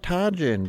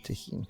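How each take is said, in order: First: The middle consonant is a hard J sound. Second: The middle consonant is a soft H sound. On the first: The speaker calls it wrong. "I almost went like full hillbilly on there" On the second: The speaker calls it right. "I think the H is"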